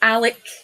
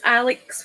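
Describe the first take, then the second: First: The name ends with a plain 'k' sound. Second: The name ends with a 'ks' sound. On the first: This is how the name is said in Scotland. "it was like it's Alec" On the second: This is how the name is spelled. "Alex with an X"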